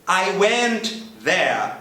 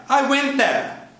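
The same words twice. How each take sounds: First: Slow, drawn-out model sentence; carefully paced demo. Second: Said in the usual way. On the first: Shown as a demonstration. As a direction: say it slowly, word by word.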